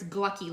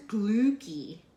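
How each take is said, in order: First: Glucky rhyming with lucky; short UH in glucky, as in luck. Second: Long OO in glucky, as in Luke; glucky with two O's. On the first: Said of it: "like lucky". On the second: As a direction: say glucky as "glooky". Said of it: "say it with the two O's". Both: Shown as a demonstration.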